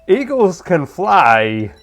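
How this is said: A put-on voice with halting, oddly paced delivery. "Christopher Walken reading anything"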